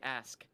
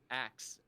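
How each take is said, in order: First: The word ends with an sk sound. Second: The word ends with a ks sound. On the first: The speaker calls it right. "Say ask" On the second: The speaker calls it wrong. "Why are you saying it like axe?"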